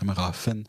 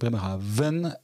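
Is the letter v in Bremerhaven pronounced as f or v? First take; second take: f; v. First: The v is pronounced as an f sound. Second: The v is pronounced as a v sound. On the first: The speaker calls it right. "le V de Bremerhaven, ça prononce Bremerhaven, comme dans Funbourg" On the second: The speaker calls it wrong. "j'ai toujours dit Bremerhaven"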